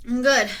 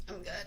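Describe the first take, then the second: First: Loud reassurance. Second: Quiet reassurance. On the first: Reassuring chat after coughing fit. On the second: Repeat quietly. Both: Real, not acted.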